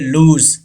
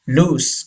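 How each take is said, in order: First: The word ends with a 'z' sound. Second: The word ends with an 's' sound. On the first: The speaker calls it wrong. "ज की आवाज नहीं आएगी" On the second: The speaker calls it right. "सीन की आवाज आएगी"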